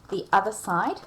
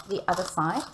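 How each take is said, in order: Both takes have the same delivery.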